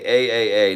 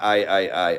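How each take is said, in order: First: The repeated vowel sounds like 'ay'. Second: The repeated vowel sounds like 'eye'. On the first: The speaker calls it right. "it's pronounced like A A A" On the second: The speaker calls it wrong. "not I I I"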